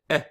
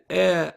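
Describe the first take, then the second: First: The vowel is cut short. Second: The vowel is held long. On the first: "It cuts it down in size" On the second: "Instead of saying eh"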